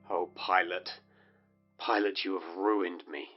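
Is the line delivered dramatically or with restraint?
restrained. It is said in a toned-down, restrained way.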